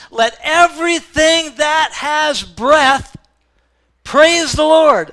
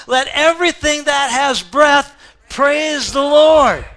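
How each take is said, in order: First: Slow, high, loud proclamation; preacher calling out to the whole church; preaching climax. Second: Slow, high, loud proclamation, words hit hard; preacher leading the congregation in unison, loud; loud call with congregation. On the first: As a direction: belt it out to the congregation. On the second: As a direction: lead the church in a shout. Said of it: "hit those last three words with me". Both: Real, not acted.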